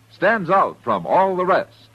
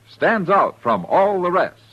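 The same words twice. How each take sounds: The two takes are said the same way.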